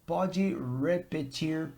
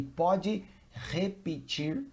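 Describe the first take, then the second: First: Slow "repetir" with an English R, not H; English-style R. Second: "repetir" starting with an H sound as in hot; Portuguese H-like R. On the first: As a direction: say "repetir" slowly with the R of "repeat". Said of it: "it's difficult for me. No problem. If you say". ("repetir" devagar com R inglês) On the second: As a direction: say the R of "repetir" like English H. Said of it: "like the sound of the letter H". ("repetir" com R aspirado, som de H) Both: Shown as a demonstration.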